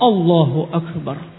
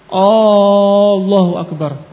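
First: It starts directly with no extra vowel. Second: An extra long vowel is added at the start. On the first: It states that God is great. The speaker calls it right. "Langsung Allahu Akbar" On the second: It asks whether God is great. The speaker calls it wrong. "Kalau dia menambah alif, ... ini istifham"

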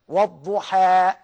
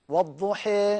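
First: The final vowel is a fully open 'a'. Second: The final vowel sits midway between 'a' and 'ee'. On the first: "أهو الفتحة" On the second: "وسطية بينهما"

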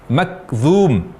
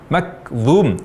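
The two takes are said the same way.

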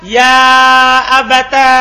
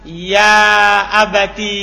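First: The word ends in a long a vowel. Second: The word ends in a long i vowel. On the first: "dikumpulkan antara ta dan alif" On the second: "Bita'i walia"

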